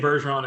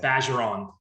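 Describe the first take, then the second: First: The first syllable does not sound like badge. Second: The first syllable sounds like the word badge. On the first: This is a common, acceptable way of saying it. "you can say Bergeron, it's totally fine" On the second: This is the local French way of saying it. "It's like saying Badger"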